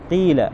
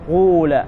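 First: The vowel is a pure 'ee' sound. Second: The vowel is a pure 'oo' sound. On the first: "تكسر القاف وتحول الألف إلى ياء" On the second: "والضم مخلصا"

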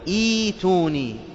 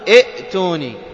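First: A long vowel replaces the glottal stop. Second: A glottal stop is pronounced in the middle. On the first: The speaker calls it right. "بل تقول ايتوني" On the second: The speaker calls it wrong. "احذر أن تقول ائتوني"

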